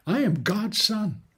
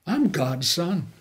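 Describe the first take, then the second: First: "I am God's son." with "am" split out and hit higher; stress on AM. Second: Said in the usual way. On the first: Shown as a demonstration. Preacher declaring his sonship to the church, stressing "am". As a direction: insist on "am", leaving the contraction open.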